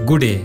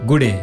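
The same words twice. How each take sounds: No difference in how they are said.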